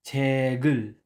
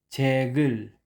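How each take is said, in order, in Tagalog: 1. Ang tunog na g ay dumadaloy nang maayos papunta sa susunod na pantig. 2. Ang tunog na g ay dumadaloy nang maayos papunta sa susunod na pantig.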